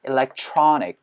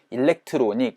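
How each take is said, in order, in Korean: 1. 강세는 'tro' 음절에 분명하게 떨어집니다. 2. 음절들이 고르게 발음되고, 'tro'에는 강세가 없습니다. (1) "트로에다가 강세를 찍어서" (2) "일렉트로닉이 아니고"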